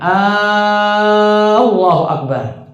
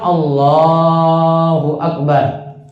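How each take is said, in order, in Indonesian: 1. Vokal pertama 'A' diucapkan panjang. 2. Vokal pertama 'A' diucapkan pendek.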